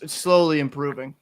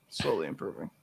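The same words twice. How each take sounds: First: Said in the usual way. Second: Much lower and softer, fading echo to himself; low trailing mumble. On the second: Real, not acted. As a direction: drop it under your breath like an afterthought. Repeats the phrase trailing off.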